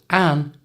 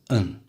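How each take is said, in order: First: The vowel is a full, clear vowel. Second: The vowel is reduced to a weak schwa. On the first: "change the vowel sound in an" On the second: "to a schwa sound"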